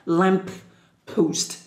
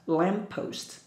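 First: The P sound is said twice. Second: The P sound is said once. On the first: The speaker calls it wrong. "We don't have to pronounce like lamppost" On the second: The speaker calls it right. "just lamppost"

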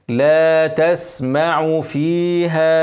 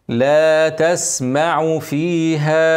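No difference in how they are said.

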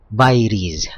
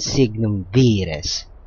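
First: The word is pronounced the English way. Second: The word is pronounced the Italian way. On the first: "In English, it's pronounced as Vires" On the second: "that was the Italian pronunciation, the closest to its Latin origin"

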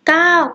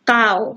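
First: The syllable is said with a falling tone. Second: The syllable is said with a low tone.

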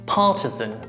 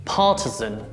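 First: It is said with British pronunciation. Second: The same.

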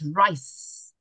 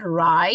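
First: The word ends with a clear s sound. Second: The word ends without a final s sound. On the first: The speaker calls it right. "it's rice" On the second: The speaker calls it wrong. "It's not rye"

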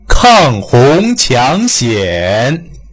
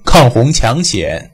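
First: The main vowels are stretched and opened wide. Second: The main vowels are short and not opened wide. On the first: The speaker calls it right. "就夸张的练习" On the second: The speaker calls it wrong. "不要把它读成抗洪抢险"

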